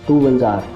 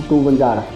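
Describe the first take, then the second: No difference in how they are said.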